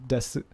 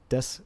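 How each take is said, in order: First: The final u vowel is pronounced. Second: The final u vowel is dropped. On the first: "here I am pronouncing it desu" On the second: "here I am not pronouncing it des"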